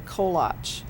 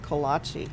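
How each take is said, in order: First: The word ends on a consonant sound. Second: The word ends with an extra vowel sound. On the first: The speaker calls it right. "it's actually kolach" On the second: The speaker calls it wrong. "not kolache"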